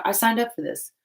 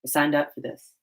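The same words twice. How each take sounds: First: Higher, wry I signed up for this; sarcastic sigh at your own choice; mock resigned sarcasm. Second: Deadpan resignation. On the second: Retold or imitated. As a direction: mutter it, accepting your fate. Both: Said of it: "These are times where I'm like".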